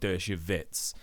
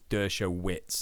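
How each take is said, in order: First: The name has a Polish-style pronunciation. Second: The name has an American-style pronunciation. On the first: The speaker calls it wrong. "not Dershowitz. I'm used to Polish pronunciations" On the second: The speaker calls it right. "I think it's Dershowitz"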